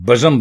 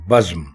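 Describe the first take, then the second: First: A short vowel is inserted between z and m. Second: The z and m form a cluster without a vowel. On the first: The speaker calls it wrong. "हमारे लोग इसको बज़म बोलते हैं" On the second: The speaker calls it right. "सिर्फ अगर जबर है इसमें तो बे के ऊपर है"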